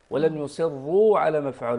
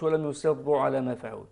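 First: يصروا with a short ra, not lengthened; ولم يصروا, no stretch on the ra; correct reading. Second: يصروا with the ra stretched out; wrong reading. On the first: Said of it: "ولم تمد الراء". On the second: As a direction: lean on the ra in يصروا and draw it long. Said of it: "ما نقولش". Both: Shown as a demonstration.

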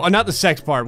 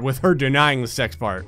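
First: "not" leaned on hard; stress on not. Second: "her" stressed in the phrase. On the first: Player clarifying the twist, stressing not. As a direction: hit "not" to correct yourself. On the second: Player explaining which part surprised them, stressing her. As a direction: lean on "her" as the contrast. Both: Shown as a demonstration.

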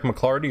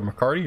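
First: McClarty with an L after the hard C; alternative pronunciation. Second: McCarty with no L; alternative pronunciation. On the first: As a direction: say McClarty as muh-KLAR-dee. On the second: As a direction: say McCarty as muh-KAR-dee. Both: Real, not acted. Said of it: "or however it's pronounced".

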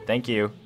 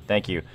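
Both takes have the same delivery.

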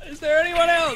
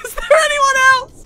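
First: High, loud battle yell; excited shout. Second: High, loud laughing echo; laughing shout. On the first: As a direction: yell it mid-fight. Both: Real, not acted.

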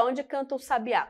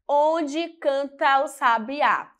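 First: "onde canta o sabiá" quick and softer, words linked; natural running pronunciation. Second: "Onde canta o sabiá" drawn out by syllables; slow syllable demo. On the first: Teacher showing how words join, "canta o sabiá" softly linked. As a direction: run "canta o" together as one sound. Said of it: "Quando a gente pronuncia". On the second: Teacher counting poetic syllables, "Onde canta o sabiá" slowly measured. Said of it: "Vamos lá". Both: Shown as a demonstration.

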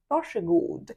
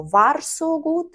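First: "varsågod" said as "vashegood"; "varsågod" with sh and a falling end; correct sh pronunciation. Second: "varsågod" with separate R and S, slowly; slow, raised "varsågod" with a clear r-s; wrong spelled-out pronunciation. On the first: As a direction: merge R and S of "varsågod" into sh. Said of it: "ми кажемо". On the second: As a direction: say "varsågod" as written, "var-so-good", pitched up. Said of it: "ми не кажемо". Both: Shown as a demonstration.

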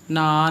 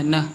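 First: ਨਾ with a long open aa; long aa mistake. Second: ਨ as a very short na; short vowel. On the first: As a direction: stretch the vowel of ਨਾ. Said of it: "ਨਾ ਨਹੀਂ ਕਹਿਣਾ". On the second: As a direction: cut ਨ off quickly. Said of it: "ਥੋੜ੍ਹਾ ਜਿਹਾ ਬੋਲਣਾ ਹੈ". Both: Shown as a demonstration.

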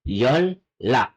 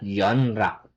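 First: "yonlak" slowly, n turned into a double L; correct assimilated pronunciation. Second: "yonrak" with separate n and r; wrong spelling pronunciation. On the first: Korean teacher giving the right form, assimilated pronunciation. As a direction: stretch "yonlak" as yol-lak. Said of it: "It's yonlak". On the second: Korean teacher correcting a misunderstood word, spelling pronunciation. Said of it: "tamang pronunciation sa kanya is not". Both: Shown as a demonstration.

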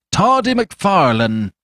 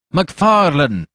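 First: Higher, louder and slow, calling out the nickname; loud insistent call. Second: A loud call of the name; plain call. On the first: Fetz hailing the startled doctor, slow loud call. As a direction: drag the nickname out loud for all to hear. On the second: Fetz first hailing the doctor, loud call. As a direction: call him out once. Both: A narrator's reading. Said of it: "repeated Fetz".

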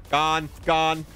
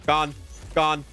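The two takes are said the same way.

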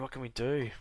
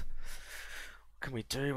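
First: Said in the usual way. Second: Whispered and slow, musing. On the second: Real, not acted. Planning his next move, a slow whisper. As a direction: breathe the question to yourself slowly. Repeated question, whispered slowly.

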